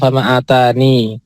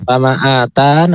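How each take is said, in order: First: The word ends with an added 'ni' syllable. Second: The word ends on a final 'tan' syllable. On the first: "caranya ada dua" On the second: "caranya ada dua"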